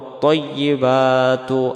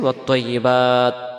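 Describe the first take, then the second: First: The word keeps its final vowel and runs on. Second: The word stops short without its final vowel. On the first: The reader continues without stopping. "যদি একবারে পড়তে চাই" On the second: The reader stops and takes a breath here. "যদি আমরা এখানে দমটা ছেড়ে দিই"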